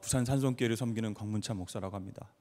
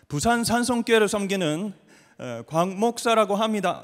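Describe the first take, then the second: First: It is said in standard Korean. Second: It is said with a regional dialect.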